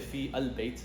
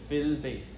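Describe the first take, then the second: First: The vowel of al is pronounced separately. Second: The vowel of al is merged into fi. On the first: The speaker calls it wrong. "We didn't say fi al bayt" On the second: The speaker calls it right. "We said fil bayt"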